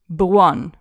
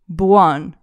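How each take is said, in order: The two takes are said the same way.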